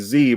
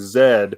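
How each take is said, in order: First: The letter is pronounced as zee, American style. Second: The letter is pronounced as zed, British style. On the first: "here we just say Z" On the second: "there they say Z"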